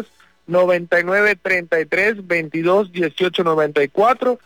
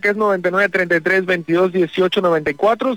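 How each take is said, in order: First: The number is said more slowly. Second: The number is said at normal speed.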